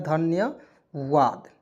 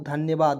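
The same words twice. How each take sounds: First: धन्यवाद drawn out very slowly, syllable by syllable; slow repeat. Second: Said in the usual way. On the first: Shown as a demonstration. Teacher repeats the meaning for students, very slow. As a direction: stretch धन्यवाद out so students catch it. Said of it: "क्या होता है?". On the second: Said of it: "thank you means क्या होता है दोस्तों?".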